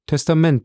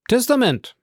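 First: Said in the usual way. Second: Ausgerufen. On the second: Acted. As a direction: call it out, struck by the discovery. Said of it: "rief der Notar". (laut und hoch ausgerufen)

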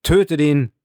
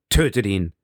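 First: Loud, high roaring crowd. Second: Said in the usual way. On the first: Acted. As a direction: roar it like twenty thousand voices. (laut und hoch gebrüllt wie eine Menge) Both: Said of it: "zwanzigtausend Stimmen riefen wie mit einem Schrei".

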